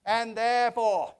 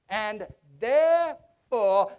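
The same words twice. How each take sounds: First: Said in the usual way. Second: "therefore" stretched slow and weighty; drawn-out therefore. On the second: Acted. Scrooge teasing Bob before the surprise, slow and weighty. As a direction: hold "therefore" long to build suspense. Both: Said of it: "repeated for suspense".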